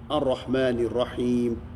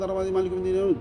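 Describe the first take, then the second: First: The phrase is recited slowly and calmly. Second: The phrase is recited very fast and rushed. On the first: The words are felt and followed. The speaker calls it right. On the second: The words cannot be understood. The speaker calls it wrong. "Se a oração for feita tão rapidamente"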